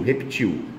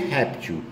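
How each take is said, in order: First: The stress is on the last syllable. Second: The stress is on the first syllable. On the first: "aqui a sílaba tônica é o tio" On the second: "Aqui é réptil"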